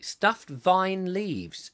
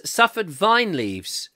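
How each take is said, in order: First: "stuffed" said carefully and slowly, the fixed word; slow careful "stuffed vine leaves" after a slip; corrected reading. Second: Vine leaves read out slowly as "Suffered", wrong word first; misreading suffered. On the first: Host corrects a misread comment, slowly saying "stuffed vine leaves". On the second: Reading a viewer's typo aloud, slowly saying "Suffered vine leaves". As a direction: reader stumbles on "Suffered vine leaves" before correcting it. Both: Shown as a demonstration.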